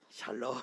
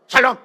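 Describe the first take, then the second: First: It is said in a soft, gentle way. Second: It is said in a stiff, curt way.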